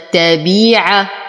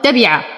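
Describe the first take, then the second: First: The middle long vowel is held full length. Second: The middle long vowel is cut short. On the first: The speaker calls it right. "وإنما تبيع" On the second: The speaker calls it wrong. "انتبه من الاختلاس فلا أقول تبع"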